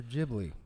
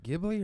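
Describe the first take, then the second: First: Ghibli with a soft G, JIB-lee. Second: Ghibli with a hard G, GIB-lee. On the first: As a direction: say Ghibli with a J sound. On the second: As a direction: say Ghibli with G as in "give". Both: Shown as a demonstration. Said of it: "was it Ghibli or Ghibli?".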